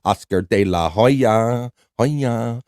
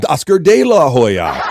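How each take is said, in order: First: Oscar De La Hoya stretched slowly; slow savoring read. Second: Oscar De La Hoya said loud with a laugh; loud laughing read. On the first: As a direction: draw out each syllable of Oscar De La Hoya. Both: Shown as a demonstration. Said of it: "I like the variation".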